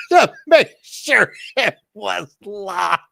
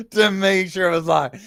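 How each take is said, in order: First: Slow, high words squeezed out through laughter; laughing. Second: Said in the usual way. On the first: Real, not acted. Laughing while telling how her scared sister crawled to lock the door. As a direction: still laughing as she gets it out.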